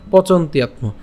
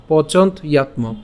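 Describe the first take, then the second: First: "পচন্ত ইয়াত ম" run together as pochontyatmo; joined pronunciation. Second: "পচন্ত ইয়াত ম" with a break after pochont; split pronunciation. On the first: Teacher pronounces the parts together, joined "পচন্ত ইয়াত ম". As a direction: link the t of "পচন্ত ইয়াত ম" straight into yatmo. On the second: Teacher shows the parts before joining, split "পচন্ত ইয়াত ম". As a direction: keep the two parts of "পচন্ত ইয়াত ম" apart. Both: Shown as a demonstration. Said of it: "একসাথে উচ্চারণ করলে".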